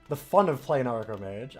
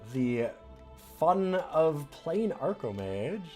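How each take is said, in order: First: The phrase is said in a sincere tone. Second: The phrase is said in a sarcastic tone. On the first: The game really is fun. The speaker calls it right. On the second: The game is not really fun. The speaker calls it wrong.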